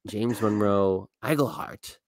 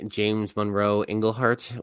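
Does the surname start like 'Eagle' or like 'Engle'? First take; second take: Eagle; Engle. First: The surname starts with an 'eeg' sound. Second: The surname starts with an 'eng' sound. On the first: The speaker calls it right. "I had to look it up" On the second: The speaker calls it wrong. "I always say James Monroe Englehart when his last name is Eigelhart. I've been saying it wrong"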